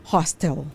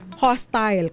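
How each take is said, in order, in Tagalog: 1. Sa American accent ito sinasabi. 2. Sa British accent ito sinasabi. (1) "Kapag ka American English" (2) "kapag ka British"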